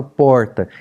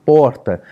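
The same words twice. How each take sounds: First: "porta" with a curled-back country r; retroflex R. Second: "porta" with a light tapped r. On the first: Pastor showing students his interior São Paulo r, retroflex. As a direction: curl the tongue back on the r of "porta". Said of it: "normalmente eu falo porta". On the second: Pastor contrasting his R sounds for students, tapped r. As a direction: say "porta" with a flicked tongue-tip r. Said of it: "o meu R não é trinado". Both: Shown as a demonstration.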